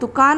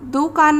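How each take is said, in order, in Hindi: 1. पहली मात्रा छोटा ऊ है। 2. पहली मात्रा बड़ा ऊ है। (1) "छोटे ऊ की मात्रा लगेगी तो ये शुद्ध शब्द हो जाएगा" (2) "दुकान नहीं होता, यहाँ पर भी बड़ा ऊ का प्रयोग गलत है"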